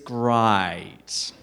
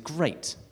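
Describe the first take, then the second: First: The word is said in an Australian accent. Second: The word is said in an English accent. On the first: "An Australian would say" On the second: "So I would say something is great"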